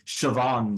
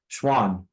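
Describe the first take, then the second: First: It is pronounced in a non-American way. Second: It is pronounced in the American way. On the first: "that one bit where they say Schwann cells" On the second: "Schwann is how we say it in America"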